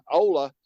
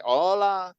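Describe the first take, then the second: First: Said in the usual way. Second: Hola in a drawn-out Mexican accent; higher, Mexican-accented Hola. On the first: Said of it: "instead of just saying". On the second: Shown as a demonstration. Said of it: "say it with a Mexican accent".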